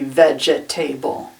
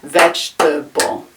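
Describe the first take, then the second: First: It is said with four full syllables. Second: It is said with only three syllables. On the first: The speaker calls it wrong. "it looks like it should be vegetable" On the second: The speaker calls it right. "Three syllables"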